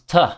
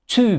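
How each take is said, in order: First: The word has a weak schwa vowel. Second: The word has a full vowel.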